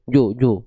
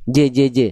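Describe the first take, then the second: First: Wrong bounce, rounded "ju, ju"; jim tebal yang salah. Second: "J, j, j" with a thin unrounded bounce, "je"; jim tipis. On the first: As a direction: round the echo of j into "ju". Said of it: "jangan jadi gini". ("ju, ju", pantulan jim tebal) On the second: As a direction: bounce each "J" lightly as "je". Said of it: "Jimnya tipis ya". ("J, j, j", pantulan jim tipis) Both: Shown as a demonstration.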